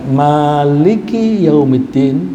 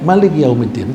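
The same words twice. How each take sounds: First: The first vowel of Maliki is held long. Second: The first vowel of Maliki is said short. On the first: It means owner of the Day of Judgment. "Kalau dibacanya panjang" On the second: It means king of the Day of Judgment. "kalau pendek"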